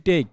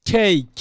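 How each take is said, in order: First: টেক with a hard, unaspirated ট; common pronunciation. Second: ঠেক with a strongly aspirated first consonant; correct pronunciation. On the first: Teacher shows how many people say it, unaspirated টেক. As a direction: say টেক with no puff of air on ট. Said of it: "এটাকে অনেকে আমরা টেক বলি". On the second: Teacher shows how the word should sound, aspirated ঠেক. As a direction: punch ঠেক out with a puff of air on ঠ. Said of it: "উচ্চারণ এখানে কি হবে?". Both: Shown as a demonstration.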